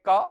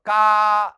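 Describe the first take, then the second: First: The vowel is held for one short beat. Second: The vowel is held for three beats. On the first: "तो ये ह्रस्व है" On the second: "जिसमें तीन मात्रा लगभग लगे वह प्लुत होता है"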